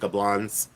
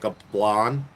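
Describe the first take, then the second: First: The word ends with a final z sound. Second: The word ends without a final z sound. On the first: "but I say Gablans" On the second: "They don't say the Z"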